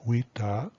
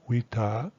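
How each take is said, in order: The two takes are said the same way.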